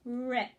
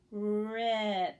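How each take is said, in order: First: Rip said as one quick word; smooth blend. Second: Rip drawn out sound by sound; sounds stretched apart. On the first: Teacher performing with the class. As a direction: swipe through Rip. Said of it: "Now perform". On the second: Teacher rehearsing with the class. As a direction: scoop slowly through Rip. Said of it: "Here we go". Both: Shown as a demonstration.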